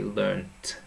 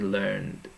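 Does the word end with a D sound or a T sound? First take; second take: T sound; D sound. First: The word ends with a crisp T sound. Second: The word ends with a soft D sound. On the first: This is the British English form. "In British English we say learnt" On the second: This is the American English form. "in American English they say learned"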